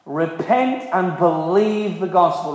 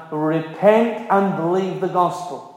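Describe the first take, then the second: First: "Repent" leaned on, each word slowed and weighted; slow emphatic repeat. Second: Said in the usual way. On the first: Shown as a demonstration. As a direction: hammer "Repent and believe the gospel" slowly home.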